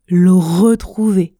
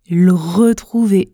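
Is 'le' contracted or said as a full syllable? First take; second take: contracted; contracted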